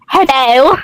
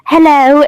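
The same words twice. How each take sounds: First: It is said in a very sassy tone. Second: It is said in a plain, neutral tone.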